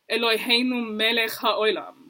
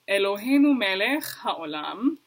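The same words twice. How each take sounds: First: It is said with an Ashkenazi pronunciation. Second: It is said with a non-Ashkenazi pronunciation. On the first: "they would say" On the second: "I would say"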